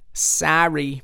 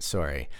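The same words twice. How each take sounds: First: Higher mock-Scottish apology; Scottish accent. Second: Said in the usual way. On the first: Apologizing for his bad accent, in mock Scottish. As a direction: say sorry in a put-on Scottish accent. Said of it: "This is just your generic Scot".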